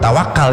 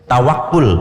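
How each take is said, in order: First: The last vowel is an 'a' sound. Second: The last vowel is a 'u' sound. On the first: The speaker calls it wrong. "bukan tawakal ya, salah kita" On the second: The speaker calls it right. "Tapi yang benar apa? Tawakul"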